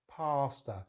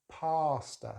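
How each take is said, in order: First: The first vowel is a long ah sound. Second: The same.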